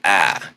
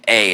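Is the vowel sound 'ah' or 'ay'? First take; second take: ah; ay. First: The vowel is said as 'ah'. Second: The vowel is said as 'ay'. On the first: "it's like a ah" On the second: "instead of being A"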